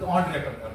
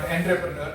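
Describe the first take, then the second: First: The first syllable sounds like 'on'. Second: The first syllable sounds like 'ent'. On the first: The speaker calls it right. "That is the correct pronunciation" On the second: The speaker calls it wrong. "Even though it is written as E N T, it is not entrepreneur"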